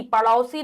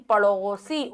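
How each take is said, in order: First: पड़ोसी with au, 'padausi'; wide au in the middle of पड़ोसी; mispronounced पड़ोसी. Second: पड़ोसी with a long o, 'padosi', lower; o sound. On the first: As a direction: say पड़ोसी wrongly as 'pa-dau-si'. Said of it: "पड़ोसी नहीं". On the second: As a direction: say पड़ोसी as 'pa-do-si'. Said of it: "ओ आएगा". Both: Shown as a demonstration.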